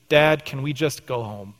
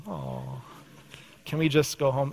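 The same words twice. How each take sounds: First: Teeth chattering, shivering words; through chattering teeth. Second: Put-on soft, whiny child begging to leave; whiny kid plea. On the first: Retold or imitated. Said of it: "he says through chattering teeth". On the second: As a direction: whine it like a tired kid. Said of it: "first service said that too".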